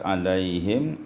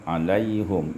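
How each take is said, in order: First: The vowel after the 'h' is 'i'. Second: The vowel after the 'h' is 'u'.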